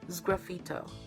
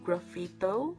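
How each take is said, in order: First: The word begins with an s sound. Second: The word begins with a g sound. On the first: The speaker calls it right. "but it's sgraffito" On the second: The speaker calls it wrong. "I think I mispronounced it to graffito"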